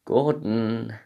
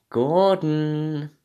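First: Said in the usual way. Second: Drawn-out higher call of the name. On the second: Acted. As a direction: call "Gordon." out like a famous chef's name. Calling Gordon's name.

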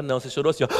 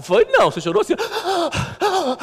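First: Said in the usual way. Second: Much higher voice mimicking his wife; mock her teasing, pitched up. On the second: Pastor imitating his wife teasing that he cried, high mock voice. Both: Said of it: "Daí ela falou".

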